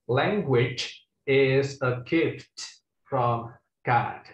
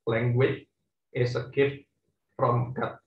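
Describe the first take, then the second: First: Every final consonant is clearly released and audible. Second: It is said in a local Indonesian accent. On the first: The speaker calls it right. "itu lengkap ya. Letupan-letupan eh, apa namanya eh, huruf matinya itu kedengeran ya" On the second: The speaker calls it wrong. "pakai logat kalian ya"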